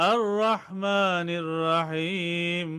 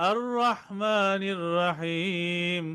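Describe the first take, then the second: Both takes have the same delivery.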